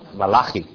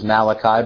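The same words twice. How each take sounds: First: The name is said with the Hebrew pronunciation. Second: The name is said with the usual English pronunciation. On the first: "Do you know how to say his name in Hebrew?" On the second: "I will continue to pronounce it as Malachi because that's how we are accustomed to it here in the West"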